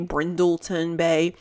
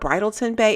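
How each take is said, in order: First: The name is said slowly with careful effort. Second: The name is said casually in a Southern drawl. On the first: The speaker calls it right. "See how I have to struggle to say Brindleton Bay" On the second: The speaker calls it wrong. "but I say, I don't know, Bridleton Bay. It just comes out"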